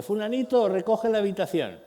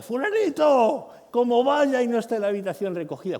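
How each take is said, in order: First: Put-on higher, louder call to the child to tidy up; a fed-up parent hollering for the first time; mock parent yell. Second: The parent losing patience, shouting louder; an escalated shout, the anger nearly at its peak; mock furious yell. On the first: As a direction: shout at level three, still holding back. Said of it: "Nivel grito tres". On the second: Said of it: "cuidado, cinco".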